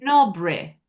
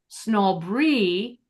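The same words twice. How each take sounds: First: The word ends in a short 'i' vowel. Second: The word ends in a long 'ee' vowel. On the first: The speaker calls it right. "I'm making it that short I sound" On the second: The speaker calls it wrong. "It's not"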